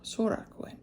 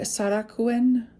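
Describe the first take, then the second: First: The first vowel sounds like 'oh'. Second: The first vowel sounds like 'ah'. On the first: The speaker calls it right. "Sorakuen, not Sara" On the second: The speaker calls it wrong. "not Sara"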